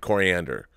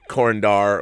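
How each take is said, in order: First: The name has four syllables, like the herb. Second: The name has three syllables, ending in dar. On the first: The speaker calls it right. "no, it's Coriander, like the" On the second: The speaker calls it wrong. "I used to say Korindar, like Commandar"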